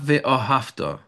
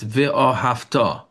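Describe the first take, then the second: First: The stress falls before the last syllable. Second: The stress falls on the last syllable. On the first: The speaker calls it wrong. "It's not ve'ahavta" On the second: The speaker calls it right. "It's on the end"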